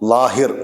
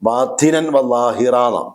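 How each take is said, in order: First: The last word stops on a bare 'r'. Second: The last word ends with a long 'a'. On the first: Some dialects pause on the word this way. "ലാഹിർ അങ്ങനെ നമ്മൾ വഖഫ് ചെയ്യുക" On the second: This follows the standard rule for pausing on the word. "ശരിക്കും ഫത്ഹ് തൻവീനാണെങ്കിൽ വഖഫ് ചെയ്യേണ്ട നിയമം അങ്ങനെയല്ല"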